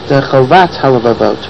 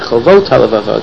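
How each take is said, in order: First: The second syllable of the first word has 'a'. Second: The second syllable of the first word has 'o'. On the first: It means duty of the heart, singular. The speaker calls it wrong. "people pronounce it Chovat HaLevavot" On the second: It means duties of the heart, plural. The speaker calls it right. "apparently it should be Chovot HaLevavot"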